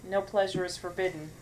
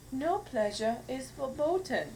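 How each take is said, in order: First: Said in the usual way. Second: Higher, slow mock German accent. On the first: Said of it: "But if I say". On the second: Shown as a demonstration. Showing the ad is funnier with the accent, German accent. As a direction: say it slowly as a cheesy German. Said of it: "didn't have a German accent".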